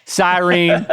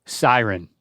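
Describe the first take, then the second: First: "Siren" said sigh-reen, rising ending; Southern siren. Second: "siren" said SIGH-ren, short schwa ending; standard siren. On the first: Retold or imitated. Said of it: "Hey, I'm with you, Dad". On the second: Shown as a demonstration. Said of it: "Hit me with it".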